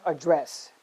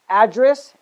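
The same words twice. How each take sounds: First: AdDRESS, stressed on the second syllable. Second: ADdress, stressed on the first syllable. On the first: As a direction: say "address" as the verb, weight on "dress". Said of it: "stress on the second syllable". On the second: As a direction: say "address" as the noun, punching "ad". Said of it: "stress on the first syllable". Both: Shown as a demonstration.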